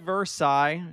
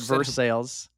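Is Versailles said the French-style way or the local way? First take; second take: French-style; local. First: The name is said the French-style way. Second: The name is said the local Kentucky way. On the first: This is how the spelling suggests it. "Spelled like Versailles" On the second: This is how the town is actually called. "but Versailles"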